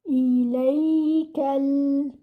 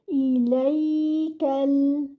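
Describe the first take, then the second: The two takes are said the same way.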